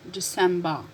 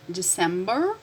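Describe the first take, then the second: First: DECEMBER with the final R dropped; British pronunciation. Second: DECEMBER with the final R sounded; American pronunciation. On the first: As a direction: say December British-style, ending in an open "ba". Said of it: "difference between American and British pronunciation". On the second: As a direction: say December American-style, ending in an r. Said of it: "call your attention about this pronunciation". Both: Shown as a demonstration.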